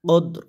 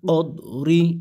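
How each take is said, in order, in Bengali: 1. শব্দটি r ব্যঞ্জনবর্ণে শেষ হয়েছে। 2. শব্দটি একটি ছোট i স্বরে শেষ হয়েছে।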